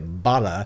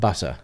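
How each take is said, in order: First: Said with an American accent, a soft flapped t. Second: Said with a British accent, a crisp clear t. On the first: "an American accent" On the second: "rather than"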